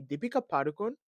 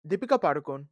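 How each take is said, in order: First: "Deepika Padukone" said like a white person; anglicized "Deepika Padukone", as a white person says it; white-person pronunciation. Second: Said in the usual way. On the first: Real, not acted. Podcaster naming the actress, "Deepika Padukone" in white-person pronunciation. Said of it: "say it like a white person". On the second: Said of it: "why did I say it like a white person".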